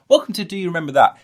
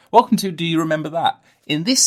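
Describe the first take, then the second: First: Loud, fast show-host welcome, higher; fast show host intro. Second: Loud show-host welcome, higher; show host intro. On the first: Podcaster redoing his intro catchphrase, loud and fast. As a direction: rattle it off like a TV host. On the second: Podcaster doing his show-intro catchphrase, loud and hammy. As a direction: announce it like a TV host. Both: Pretend. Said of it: "I've got, um".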